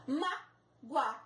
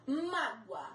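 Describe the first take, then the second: First: Mágoa broken in two, a gap after a stressed Má; syllable split, stress on MÁ. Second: Said in the usual way. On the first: Shown as a demonstration. Teacher showing the diphthong in one syllable, Mágoa split as Má-goa. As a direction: say Mágoa slowly as Má... goa, leaning on Má. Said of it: "A sílaba forte é o má".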